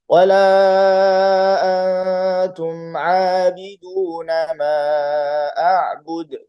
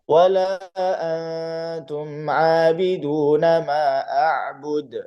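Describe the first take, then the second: First: Every long vowel is held longer, four counts. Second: Every long vowel is held briefly, two counts. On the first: "kalau empat harokat semua harus sama" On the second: "Itu kalau dua harokat semua"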